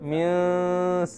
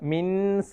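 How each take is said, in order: First: The n sound is hidden and nasalized. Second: The n sound is pronounced clearly and fully. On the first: The speaker calls it right. "നൂനെ മറച്ചു പിടിച്ചിട്ട്" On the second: The speaker calls it wrong. "മിൻസ എന്ന് ഓതരുത്"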